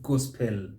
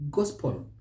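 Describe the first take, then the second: First: "gospel" as gos-PELL; wrong full EL. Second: "Gospel" as GOS-pul; silent E. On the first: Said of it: "not gospel". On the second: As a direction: swallow the e in "Gospel". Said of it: "So we say". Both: Shown as a demonstration.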